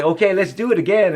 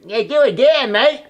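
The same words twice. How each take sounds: First: Said in the usual way. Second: High, loud New Zealand director voice calling "do it again, mate"; Kiwi accent. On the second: Retold or imitated. Director calling for another take, in a Kiwi accent. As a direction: mimic the Kiwi director, voice up and louder. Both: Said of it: "in his Kiwi accent".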